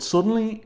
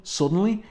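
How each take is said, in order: First: "suddenly" pitched much higher and stretched in disbelief; mocking emphasis. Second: "Suddenly." read with a rising lilt, as a puzzled quote; Suddenly lifted at the end like a question; caption read aloud. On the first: Reviewer mocking the caption word, high and incredulous. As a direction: sing out suddenly high to mock it. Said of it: "is so weird". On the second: Reviewer quoting an odd comic caption, rising and puzzled. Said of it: "How can it be suddenly?". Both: Shown as a demonstration.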